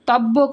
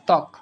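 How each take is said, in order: First: A doubled 'b' sound is heard in the middle. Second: No 'b' sound is heard in the word. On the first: The speaker calls it wrong. "তব্বক না ত্বক" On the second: The speaker calls it right. "শব্দের শুরুতে যদি বফলা থাকে সেই বফলার কোনো উচ্চারণ হয় না"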